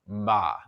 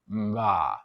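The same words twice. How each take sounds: First: The syllable is said at normal speed. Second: The syllable is said slowly and exaggerated.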